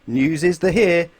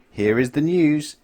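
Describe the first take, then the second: First: Slow, loud announcer read; newsreader. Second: Slow announcer read; newsreader. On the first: Television newsreader opening the news, slow and loud. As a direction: announce it grandly. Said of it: "said the television newsreader". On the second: Television newsreader opening the news, slow and grand. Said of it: "instead of saying". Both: A narrator's reading.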